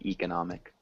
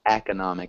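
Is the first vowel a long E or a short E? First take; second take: long E; short E. First: The first vowel is a long E. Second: The first vowel is a short E. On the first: The speaker calls it wrong. "instead of" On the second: The speaker calls it right. "it's a short E at the beginning"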